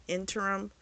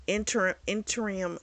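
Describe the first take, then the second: First: Said in the usual way. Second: "interim" tried and fumbled, clipped as "inter"; stumbling pronunciation. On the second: Shown as a demonstration. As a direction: fumble the word "interim", unsure of its syllables. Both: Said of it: "I know I'm not saying it right".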